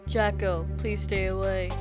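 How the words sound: It is said in a deep, manly voice.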